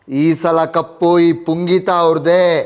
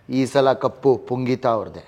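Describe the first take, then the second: First: It is said loudly. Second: It is said softly.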